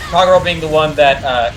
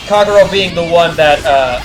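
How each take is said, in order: Both takes have the same delivery.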